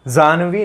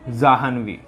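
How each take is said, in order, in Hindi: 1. बीच में कोई 'h' ध्वनि सुनाई नहीं देती। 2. बीच में 'h' ध्वनि सुनाई देती है। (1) "जानवी नहीं होता, ये आपका गलत हो जाएगा" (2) "होता क्या है"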